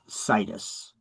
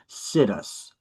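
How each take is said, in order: First: It does not sound like 'sit us'. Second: It sounds like the two words 'sit us'. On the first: The speaker calls it right. "it's really pronounced situs" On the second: The speaker calls it wrong. "I mispronounce it as sit us"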